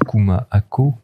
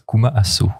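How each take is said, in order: First: The last word has a k sound in the middle. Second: The last word has an s sound in the middle. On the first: The speaker calls it right. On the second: The speaker calls it wrong.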